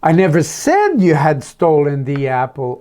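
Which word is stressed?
said. The word "said" carries the stress. It was written, not spoken. "Oh, maybe I just wrote a note about it"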